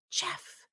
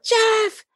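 First: Faint, toneless attempt at a shout; voiceless call. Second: High-pitched calling out; intended yell. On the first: Wife calls husband after passing out, voice gone. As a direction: try to call out with no voice left. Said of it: "Where's my voice?". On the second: Acted. Wife means to call husband downstairs, high yell. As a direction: call out sharply for Jeff, pitched way up. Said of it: "what I think is gonna come out".

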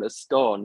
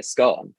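First: Scone said with a long o as skoh-n; "scone" with a long oh vowel, as skone. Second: Scone said short, rhyming with gone; scone as scon. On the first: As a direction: say "scone" to rhyme with "cone". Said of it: "how people call a scone a scone". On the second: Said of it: "when it's actually a scone". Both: Shown as a demonstration.

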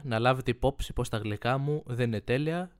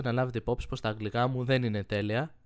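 First: Γλυκά said as glyka, the English word slurred into sweets; misread word. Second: Αγγλικά said clearly as anglika; careful reread. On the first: Real, not acted. Reading a listener letter aloud, slurring γλυκά. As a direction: read γλυκά as glyka, no ng sound. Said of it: "Το λες αγλικά". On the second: Shown as a demonstration. Rereading the letter line, saying αγγλικά correctly. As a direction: stress the ng in αγγλικά. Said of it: "Πάμε πάλι".

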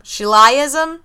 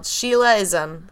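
First: "Sheilaism" tried as shee-LIE-iz-um, rising; alternative pronunciation. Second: "Sheilaism" said as SHEE-luh-iz-um; spelled-out pronunciation. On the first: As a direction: question "Sheilaism" with a LIE in the middle. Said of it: "how to pronounce it". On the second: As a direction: say "Sheilaism" as the name Sheila plus ism. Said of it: "That's the way it's spelled". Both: Shown as a demonstration.

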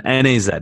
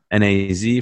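First: N A Z with Z said "zed"; British letter Z. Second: N A Z with Z said "zee"; American letter Z. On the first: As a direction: spell N A Z, ending on British "zed". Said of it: "N A Z for Americans or whatever". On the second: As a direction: spell N A Z, ending on American "zee". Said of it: "for Americans or whatever". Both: Shown as a demonstration.

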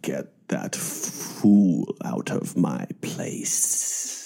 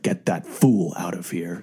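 First: Slow, whispery sinister villain hiss; sinister lisp. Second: Slow, hissing villain voice; sinister lisp. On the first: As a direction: drag out every S, slow and sinister. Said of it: "he really dragged out the S's ... a sinister lisp". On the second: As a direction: drag out the S, low and menacing. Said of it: "he's like". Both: Retold or imitated.

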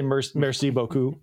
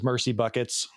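First: Merci beaucoup with a French r and vowels; merci beaucoup, the correct French way; proper French. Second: Mercy buckets said as plain English words; Mercy buckets, an English mangling of merci beaucoup; Mercy buckets, said like two English words; mispronounced French. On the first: Shown as a demonstration. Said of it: "which obviously he's, he's trying to say". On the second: Retold or imitated. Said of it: "he's trying to say, "Merc-, merci beaucoup".

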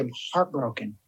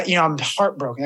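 First: Low, soft and deflated; a hushed admission of grief; quiet heartbroken. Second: Said in the usual way. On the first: Retold or imitated. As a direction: let the word sink, heartbroken. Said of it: "How are you?". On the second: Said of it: "And I was just like".

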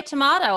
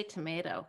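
First: "tomato" said as to-MAH-to; broad A pronunciation. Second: "tomato" said as to-MAY-to; long A pronunciation. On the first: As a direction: say "tomato" with a long AH in the middle. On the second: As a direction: say "tomato" with an AY in the middle. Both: Shown as a demonstration. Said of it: "You say tomato, I say tomato".

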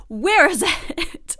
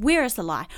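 First: Where is it laughed out slowly; laughing. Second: Said in the usual way. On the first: Real, not acted. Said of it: "laughing repeat". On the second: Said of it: "rhetorical exclamation".

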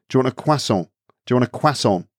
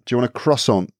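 First: Croissant as "kwa-son"; French-style croissant. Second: Croissant as English "cross-on"; hard R in croissant, no French "wa"; anglicised croissant. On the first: Trying how to offer one, French-style pronunciation. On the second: Offering one to a British person, anglicised pronunciation. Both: Shown as a demonstration. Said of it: "So you would change it back?".

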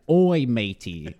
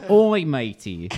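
First: Slow, drawn-out Australian "Oi, matey"; a light Aussie "Oi, matey" read off the card; Australian accent. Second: Slow Australian "Oi, matey" a little louder; Australian accent. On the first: Reading the card's Australian quote to friends. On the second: Repeating the card's Australian quote to friends. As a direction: lean into the Aussie "Oi, matey". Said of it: "in quotes". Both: Shown as a demonstration.

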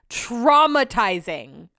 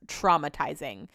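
First: TRAUMATIZING drawn way out, louder on the first syllable; "Traumatizing" repeated big, every syllable elongated; emphatic repeat. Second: Said in the usual way. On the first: Real, not acted. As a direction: stretch "Traumatizing" slowly for dramatic weight.

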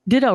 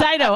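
First: "Ditto" said with a t sound, DIT-oh; mistakenly saying "Ditto" as DIT-toe; wrong name. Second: "Dido" said as DYE-doh, high and emphatic; corrected name. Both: Real, not acted. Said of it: "Oh my God, I said Ditto".

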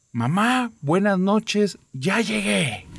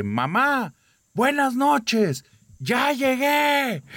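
First: High, calling out to the dead; shouted greeting. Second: Very high, slow, drawn-out yell; louder shout. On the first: Girl calling into the cemetery, high shouted greeting. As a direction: call it out into the graveyard, high-pitched. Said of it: "Entonces grita". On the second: Girl yelling into the cemetery to prove her dare, slow full shout. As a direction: stretch the words into a full-throated shout. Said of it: "y lo grita más fuerte". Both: Retold or imitated.

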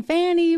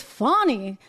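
First: "Fanny" said the usual way, with a short flat a; the mistaken "Fanny", said casually; "Fanny" the way he always says it; old pronunciation. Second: "Fani" with a broad ah, as "FAH-nee"; the corrected "Fani", said carefully; "Fani" with an open ah vowel; correct pronunciation. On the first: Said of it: "but apparently it's Fani". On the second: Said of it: "I've been saying Fanny". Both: Shown as a demonstration.

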